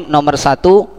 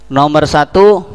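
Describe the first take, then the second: The two takes are said the same way.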